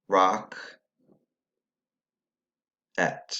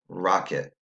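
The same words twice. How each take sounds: First: "Rock, et" as two separate syllables, long pause between; syllables said separately. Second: "Rocket" ending in a weak "it"; syllables put together. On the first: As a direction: sound out "Rock" and "et" with equal weight. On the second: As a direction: say "Rocket" joined, with a schwa in the end syllable. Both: Shown as a demonstration. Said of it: "if we put the syllables together".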